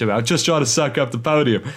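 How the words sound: It is said in an Australian accent. The speaker calls it right.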